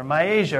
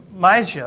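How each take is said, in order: First: "Myasia" as a second guess, with an extra syllable; alternative pronunciation. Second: "Mysia" as a tentative first try; uncertain pronunciation. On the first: Preacher offering another way to say the name, alternative pronunciation. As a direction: say "Myasia" as "my-Asia", unsure. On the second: Preacher trying a place name from the verse, unsure pronunciation. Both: Shown as a demonstration. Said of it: "however you say that, I don't know".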